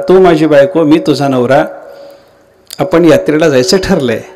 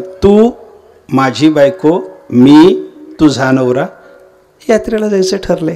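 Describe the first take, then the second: First: The sentence runs together without pauses. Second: The sentence is broken up by pauses.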